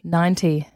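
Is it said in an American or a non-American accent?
non-American. It is said in the speaker's non-American accent.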